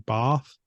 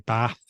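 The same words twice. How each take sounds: First: It has a long southern vowel. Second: It has a short northern vowel.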